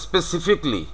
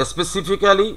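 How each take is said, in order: First: "specifically" as spesi-FIK-lee; "specifically" ending in "fik-li", falling; correct "specifically". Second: "specifically" as spesifi-kaa-li, higher; every written syllable of "specifically" sounded; local "specifically". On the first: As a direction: say "specifically" with the "ca" dropped. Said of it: "it is specifically". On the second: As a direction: say "specifically" with a full "kaa" before "li". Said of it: "আমরা যেটা উচ্চারণ করছি". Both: Shown as a demonstration.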